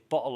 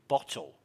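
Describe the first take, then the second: First: The t sound is dropped, a glottal catch. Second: The t sound is clearly pronounced. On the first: "They say bottle of water, ... They don't pronounce T's" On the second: "They don't say bottle"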